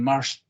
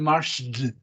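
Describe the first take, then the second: First: The word ends with a voiceless t sound. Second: The word ends with a voiced d sound. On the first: The speaker calls it right. "sino dicen marched" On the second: The speaker calls it wrong. "no dicen marched"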